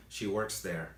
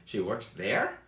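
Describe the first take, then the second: First: Said in the usual way. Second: "She works there" subiendo mucho en "there"; entonación de sorpresa. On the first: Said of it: "En inglés no te sirve". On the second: Shown as a demonstration. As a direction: pregunta incrédulo, con "there" agudo y fuerte. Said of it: "si te está sorprendiendo mucho". ("She works there" como pregunta de sorpresa)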